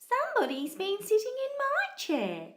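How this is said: It is squealed in a high mummy voice.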